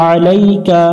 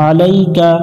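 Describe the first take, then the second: The two takes are said the same way.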